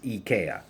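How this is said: The name is said with a Swedish pronunciation. "The way that you say it in Swedish is IKEA"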